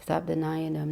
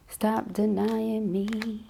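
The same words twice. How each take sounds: First: Said in the usual way. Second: Stretched slow and higher; slow, drawn-out plea. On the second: Acted. Reader voicing the absent partner, slow drawn-out plea. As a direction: draw out denying slowly as the partner's voice. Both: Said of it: "they say".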